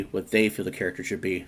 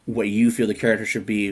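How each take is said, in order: First: "they" picked out, rest softer; stress on THEY. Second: "you" picked out against "they"; stress on YOU. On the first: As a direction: lean on "they" to answer the contrast. Contrasts makers with the viewer. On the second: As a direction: lean on "you" to set up a contrast. Contrasts viewer with the makers. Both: Real, not acted.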